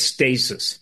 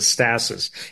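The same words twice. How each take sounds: First: The first vowel is a long A sound. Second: The first vowel is a short A sound. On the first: "It's a long A" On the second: "Some people pronounce it stasis"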